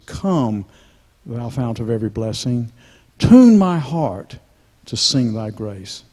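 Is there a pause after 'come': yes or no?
yes. There is a pause after the word come.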